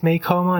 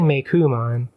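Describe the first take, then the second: First: The second syllable is said with an o vowel. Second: The second syllable is said with a u vowel. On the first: The speaker calls it wrong. "C O O would be Ko" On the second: The speaker calls it right. "they're saying Meikumon"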